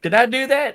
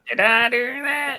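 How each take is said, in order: First: It is said in his ordinary voice. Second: It is said in an Urkel impression voice.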